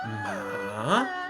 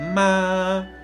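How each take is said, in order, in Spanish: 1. El tono baja hasta un nivel bajo y luego vuelve a subir. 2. El tono se mantiene alto y estable todo el tiempo. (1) "El tercer tono es ascendente y descendente" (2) "ese sería el primer tono"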